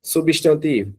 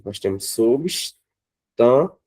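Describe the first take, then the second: First: Said in the usual way. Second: Substantivo stretched out slowly; slow syllables. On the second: Shown as a demonstration. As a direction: drag substantivo out beat by beat. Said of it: "nós temos uma, duas, três, quatro sílabas".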